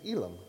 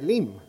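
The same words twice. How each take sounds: First: The name is pronounced with English sounds. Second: The name is pronounced with Spanish sounds. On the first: "So in English, it's Elim" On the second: "In Spanish, we say Elim"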